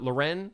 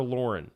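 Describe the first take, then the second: First: Lauren said as luh-REN; Lauren with a reduced first syllable, luh-REN; stressed second syllable. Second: Lauren said as LOR-un; Lauren with a full first syllable, LOR-un; stressed first syllable. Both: Shown as a demonstration. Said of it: "Is it Lauren or Lauren".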